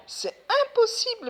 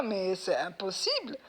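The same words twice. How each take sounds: First: "امبوسيبل" cried out much higher and louder; exasperated cry. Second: Said in the usual way. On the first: Real, not acted. To viewers about slaughtering without water, exasperated. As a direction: throw up your hands on "امبوسيبل". Repeats impossible, louder second time.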